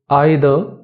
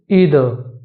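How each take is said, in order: First: It is said in a British accent. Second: It is said in an American accent. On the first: "In British" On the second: "In American accent"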